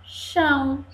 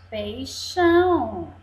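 First: PEI... XÃO, with a pause between; syllable by syllable. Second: Said in the usual way. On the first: Shown as a demonstration. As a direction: break "Peixão" into two separate syllables. ("Peixão" silabado: pei... xão) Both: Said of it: "cortada em pedacinhos".

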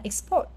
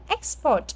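First: Export as ex-PORT, second syllable stressed. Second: Export as EX-port, first syllable stressed. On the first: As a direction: keep ex short in export, land on PORT. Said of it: "khi là verb thì là". (export nhấn âm hai: ex-PORT) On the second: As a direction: hit EX in export, let port fall. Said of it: "chúng ta đọc là âm nhất". (export nhấn âm một: EX-port) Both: Shown as a demonstration.

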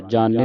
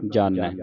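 First: ਜਾਣੈ ending in a narrow "e"; wrong reading. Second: ਜਾਣੈ with an open "ai" ending; correct reading. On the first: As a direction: misread ਜਾਣੈ with a single-lavan "ay" ending. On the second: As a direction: end ਜਾਣੈ on a falling, lower "ai". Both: Shown as a demonstration. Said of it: "ਨਹੀਂ ਪੜ੍ਹਨਾ".

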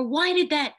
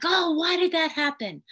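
First: Put-on high, loud "Why did that?" snapped at the child; sharp alarmed outburst; intense reaction. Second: High, loud, alarmed "Oh, why did that happen?"; intense reaction. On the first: Therapist showing a reactive adult, loud and high. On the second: Therapist showing an overreaction to a child, intense and loud. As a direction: overreact with a sharp, loud rise. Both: Shown as a demonstration. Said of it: "sometimes we're very intense".

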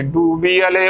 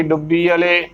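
First: ਡੂਬੀ ਵਾਲੇ with a long "oo"; correct pronunciation. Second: ਡੁੱਬੀ ਵਾਲੇ with short u and doubled b; wrong short vowel. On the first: Teacher giving the right reading, careful pronunciation. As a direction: stretch the first vowel of ਡੂਬੀ ਵਾਲੇ. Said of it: "ਉਚਾਰਨ ਕਰਨਾ". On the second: Teacher showing what to avoid, mispronunciation. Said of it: "ਨਾ ਕਿ". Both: Shown as a demonstration.

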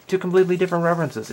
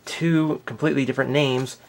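First: "completely" punched higher and faster; emphatic stress. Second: Said in the usual way. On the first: Shown as a demonstration. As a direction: lean hard on "completely", quick and high. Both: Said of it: "repeated phrase, contrasting".

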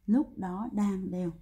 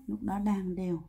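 First: Slow, words stretched out; slow emphatic repeat. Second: Said in the usual way. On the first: Shown as a demonstration. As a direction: repeat it slowly so each word lands. Teacher repeats the key phrase slowly. (nhắc lại chậm, rõ từng chữ)

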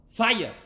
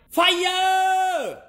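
First: Exclaiming fire. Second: A huge, high mock shout of Fire!; hammed-up yell of Fire!; dramatic shout. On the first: Pretend. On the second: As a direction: belt out Fire! like a silly alarm. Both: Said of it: "That sounded stupid".

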